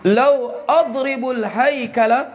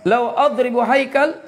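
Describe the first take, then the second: First: Slow, careful "adribul haikala" with the ending vowels added; slip of the tongue. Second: "adribu haikal" said cleanly, with no extra endings; corrected reading. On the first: Teacher misreads "adribul haikala" slowly to the class. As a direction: read it as "adribul haikala" before correcting. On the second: Teacher corrects himself to "adribu haikal" for the students. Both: Shown as a demonstration. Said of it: "Macam saya sebut begini".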